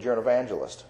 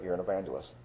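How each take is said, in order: First: Said in the usual way. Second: Soft, hushed inner voice of God; a soft, still whisper of a calling; still small voice. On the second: Retold or imitated. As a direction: say it quietly, like a voice heard within. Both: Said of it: "that still small voice in my spirit".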